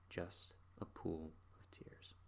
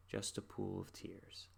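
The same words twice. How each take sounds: First: Slow breathless whisper of Just a pool of tears. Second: Slow, soft Just a pool of tears; soft sad line. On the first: Reciting the song's last line, slow whisper. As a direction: fade it to nothing, whispering. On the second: Reciting the song's sad ending, slow and soft. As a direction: let the sorrow sink, slowly and softly. Sad lyric repeated, fading. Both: Retold or imitated.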